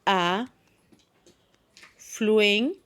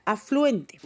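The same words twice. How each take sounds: First: "A", pause, "fluen" drawn out, pause, "te"; split into syllables. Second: Said in the usual way. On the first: Shown as a demonstration. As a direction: say "A, fluente" syllable by syllable, each one held. (por sílabas: "A"... "fluen"... "te") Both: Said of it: "Cómo la dividiríamos".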